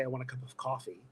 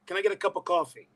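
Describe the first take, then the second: First: Said in the usual way. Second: Brooklyn accent slipping out, higher; higher-pitched Brooklyn coffee order; tired Brooklyn accent. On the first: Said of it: "when I'm really tired and I say". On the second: Shown as a demonstration. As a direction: let Brooklyn take over "coffee". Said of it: "it'll come out like".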